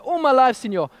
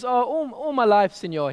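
First: Put-on higher, louder Mexican accent on all my life. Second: Put-on old fisherman's Mexican accent, rolled senor; lightly Mexican-accented fisherman, easygoing. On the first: Fisherman repeating his answer in a fuller Mexican accent. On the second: Fisherman answering the tourist in a Mexican accent. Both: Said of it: "this is a Mexican accent, by the way".

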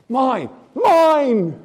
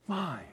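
First: "Mine, mine" loud and high, falling away; emphatic claim. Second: "mine" said softly, as a dying echo. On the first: Pastor voicing God claiming his peace, loud emphatic cry. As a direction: proclaim it as God's own. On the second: Pastor voicing God's echo to the room, soft fading word. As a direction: let it drop to almost nothing. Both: Acted.

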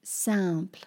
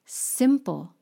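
First: Simple said as French sampl; simple in French, nasal sam-pl; French pronunciation. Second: Said in the usual way. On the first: Shown as a demonstration. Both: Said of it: "in French becomes simple".

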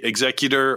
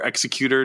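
First: "Executor" stressed on the second syllable; alternate pronunciation. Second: "Executor" stressed on the first syllable; alternate pronunciation. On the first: Host offering fans one pronunciation, "Executor" stressed on ZEK. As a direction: say "Executor" as ig-ZEK-yuh-ter. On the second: Host offering fans the other pronunciation, "Executor" stressed on EK. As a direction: say "Executor" as EK-suh-kyoo-ter. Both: Shown as a demonstration. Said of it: "how you pronounce things".

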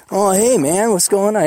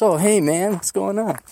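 First: Light imitation of a mellow California guy; a hint of a relaxed California friend; laid-back California accent. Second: Milder California greeting, not the stoner dude; a hint of California ease, less surfer; understated California accent; toned-down California accent. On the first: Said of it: "He got that California accent". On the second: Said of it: "Not the dude, man, pot smoking".

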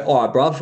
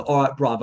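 First: Put-on higher, louder London bruv accent; English accent. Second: Put-on higher London bruv accent; English accent. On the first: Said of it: "I know how to do English". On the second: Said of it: "Like, you go, the". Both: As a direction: greet a mate as a Londoner.

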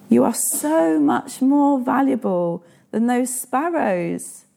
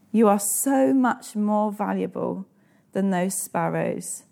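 First: Higher and slow, leaning on "so": "You are SO much more valuable"; emphatic reassurance. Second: Gentle repeat. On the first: Preacher assuring the congregation of their worth, slow and emphatic. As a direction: proclaim it slowly with a lifted voice, stressing "so". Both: Shown as a demonstration. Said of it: "Do you need to hear that today?".

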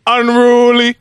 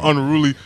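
First: "unruly" stretched long, pitched high; drawn-out emphasis. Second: Said in the usual way. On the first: Real, not acted. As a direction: lean hard into "unruly", slow and high. Repeats the word for comic emphasis.

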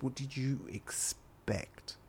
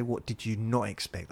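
First: "expect" broken slowly into "ex... pect"; slow, pointed correction. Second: "not" lifted as the misquoted word; stress on NOT. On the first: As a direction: spell it out slowly and higher, splitting "expect". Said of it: "I said". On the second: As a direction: correct the listener, leaning on "not". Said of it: "I didn't say". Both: Retold or imitated.

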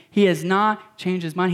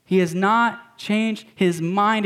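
First: Said in the usual way. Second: "not" leaned on, slow and deliberate; stress on not. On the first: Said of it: "repeat of phrase". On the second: Shown as a demonstration. Pastor assuring the congregation, slow stress on "not". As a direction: drag out "He has not changed his mind", hitting "not". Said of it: "repeats with slow emphasis".

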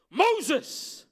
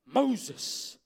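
First: Moses called out much louder and higher, falling at the end; God calling Moses again from the bush, more insistent. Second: Moses called out loud, falling at the end; God calling Moses from the burning bush; calling by name. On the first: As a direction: call Moses a second time, stronger. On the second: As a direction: call Moses firmly by his name. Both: Acted. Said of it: "He says".

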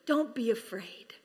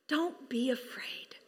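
First: Said in the usual way. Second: Slow soft whisper; whispered reassurance. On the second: Acted. Angel whispering comfort to the shepherds, slow whisper. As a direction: breathe it gently, slowly, unvoiced.

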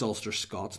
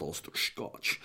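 First: Said in the usual way. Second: "Scotch" with a slushy, drawn-out sh ending; mock mispronunciation. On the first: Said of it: "I think it's Ulster Scots". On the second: Shown as a demonstration. Host mocking his own slip of Ulster Scots, slushy "Scotch". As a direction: slur "Scotch" low and slow into a long sh. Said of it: "not Ulster Scotch".

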